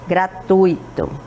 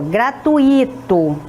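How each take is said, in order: First: The stress falls on the 'tu' syllable. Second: The stress falls on the 'i' syllable. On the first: The speaker calls it right. "O correto seria gratuito" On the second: The speaker calls it wrong. "Está correto essa pronúncia? Não está correto"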